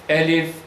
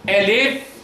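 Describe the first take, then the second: First: The word is said at a medium speed. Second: The word is drawn out slowly. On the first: This is the middle recitation pace. "Bu ikisinin arası elif" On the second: This is the slow, careful recitation pace. "Yavaş yavaş söylersen elif"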